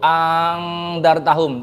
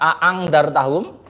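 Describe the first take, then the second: First: The second glottal stop becomes a long vowel. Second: Both glottal stops at the start are pronounced. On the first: "mengganti yang kedua menjadi alif" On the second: "mewujudkan dua hamzah"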